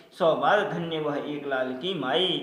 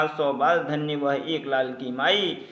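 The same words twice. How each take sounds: Both takes have the same delivery.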